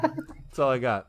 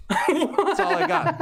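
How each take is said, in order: First: Said in the usual way. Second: High, laughing through the words; giggling it out. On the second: Real, not acted.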